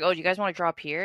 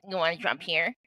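First: Said in the usual way. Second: Mocking parrot of her voice; put-on mimicking voice, teasing; mocking impression. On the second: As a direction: echo it back to make fun. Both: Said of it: "making fun of my voice".

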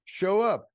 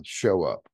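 First: "Show up" repeated, higher and punched; emphatic repeat. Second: Said in the usual way. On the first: Shown as a demonstration. Coaching young men to show up, emphatic. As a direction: hammer "Show up" home.

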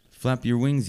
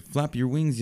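First: Higher, mildly louder encouraging yell of "wings". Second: Much higher encouraging call of "wings"; yelling. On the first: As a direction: call up to the flying chick. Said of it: "yelled Missus Bird". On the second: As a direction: urge him on from below. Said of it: "yelled Mister Bird". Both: Acted.

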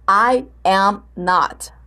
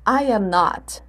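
First: "I am not" slowly, with gaps between words; slow, separated model answer; word-by-word demonstration. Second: Said in the usual way. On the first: Shown as a demonstration. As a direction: set out "I", "am", "not" one at a time. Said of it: "Vai colocar lá".

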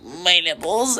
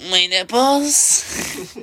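First: High drawn-out squeal; mock girl squeak. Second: High, slow, drawn-out squeal; mock girl squeak. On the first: Quoting the video girl to a friend, high squeal. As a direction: imitate the girl's squeal again. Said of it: "the girl just being like". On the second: Friend retelling a viral video, high slow squeal. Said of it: "she just goes".

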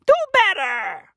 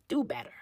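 First: Scolding call-out. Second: Said in the usual way. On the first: Acted. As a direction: shout it like a fed-up big brother. Scolding shout to the kid.

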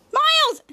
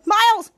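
First: Much higher, louder call of the name; higher desperate call. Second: Loud call of the name; calling Miles. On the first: Shadow calls Miles again, higher and more desperate. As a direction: shriek the name, more urgent. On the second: Shadow calls Miles as he runs at the van, loud call. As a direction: yell out to stop him. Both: Retold or imitated. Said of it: "Shadow said".

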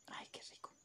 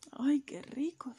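First: Secret whispered "Ay, qué rico". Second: Said in the usual way. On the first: Acted. Chick sneaking cake, whispering "Ay, qué rico".

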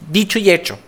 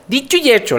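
First: Said in the usual way. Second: Higher, punchier repeat of Dicho y hecho; emphatic, higher Dicho y hecho. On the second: Real, not acted. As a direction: hit Dicho y hecho again with a knowing emphasis.

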